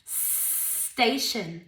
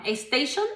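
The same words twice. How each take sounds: First: Station with no E in front; Station correcto; correct station. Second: Station with an added E at the start; Spanish-style estation; Station mal dicho; wrong station. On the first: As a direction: clean st onset for Station. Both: Shown as a demonstration.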